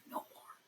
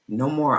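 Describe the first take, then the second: First: A breathy whisper, barely there; hushed repeat of no more. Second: Said in the usual way. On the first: Real, not acted. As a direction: whisper it to yourself. Repeats phrase, drops to whisper.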